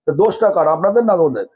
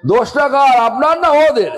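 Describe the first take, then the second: First: Said in the usual way. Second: Emphatic raised question. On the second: Real, not acted. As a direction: hammer the question home to the listeners. Preacher repeats question, raised emphatically.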